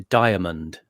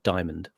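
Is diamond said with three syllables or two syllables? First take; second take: three; two. First: The word is said with three syllables. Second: The word is said with two syllables. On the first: The speaker calls it right. "it's a three syllable word" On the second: The speaker calls it wrong. "It's not diamond"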